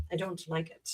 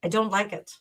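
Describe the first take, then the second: First: "I don't like it" dropped to a near-silent mutter; quiet grumbling aside; muttered under breath. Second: Said in the usual way. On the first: Real, not acted. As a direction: repeat it to yourself, barely audible. Echoes her complaint under breath.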